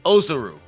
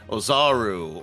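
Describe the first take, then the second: First: The stress does not fall on the second syllable. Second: The stress falls on the second syllable. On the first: The speaker calls it right. "I remember that it's supposed to be Ozaru" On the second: The speaker calls it wrong. "my first instinct is to put the syllable on the second word"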